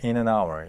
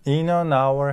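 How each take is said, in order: First: The words are linked together like one word. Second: The words are said separately, without linking.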